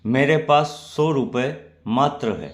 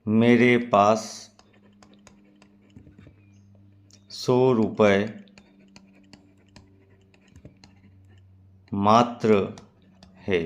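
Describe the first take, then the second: First: मात्र said with a firm falling close, पास raised high; stress on मात्र. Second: Slow, drawn-out सौ रुपये with a beat before मात्र; pause, then land on मात्र; stress on मात्र. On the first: Teacher repeats the example for students, stressing मात्र. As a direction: run through quickly and drop firmly on मात्र. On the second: Teacher demonstrates the particle, pausing before मात्र. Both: Shown as a demonstration. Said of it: "आप इसे उच्चारण करके समझें".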